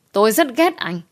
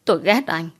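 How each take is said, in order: First: "ghét" pushed higher and harder; escalate, hit "rất ghét"; rising anger. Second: Said in the usual way. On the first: A narrator's reading. (nhấn mạnh "ghét", cao giọng hơn) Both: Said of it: "vùng vẫy hay chửi rủa".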